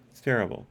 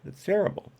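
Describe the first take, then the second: First: Said in the usual way. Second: "It's terrible." in a mock Transylvanian accent, much higher, rising at the end. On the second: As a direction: groan "It's terrible." as a hammy vampire. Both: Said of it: "devolved into a Transylvanian accent".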